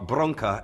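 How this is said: The word is said with a Portuguese pronunciation.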